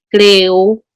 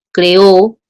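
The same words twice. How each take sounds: First: "creo" stressed on the first syllable, CRE-o; creo said plainly. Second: "creó" stressed on the last syllable, cre-Ó, a bit louder; creó with final stress. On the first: ("creo" con acento en la primera sílaba, CRE-o) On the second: ("creó" con acento en la última sílaba, cre-Ó) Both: Shown as a demonstration. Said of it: "La palabra creo, creó, cambia de significado".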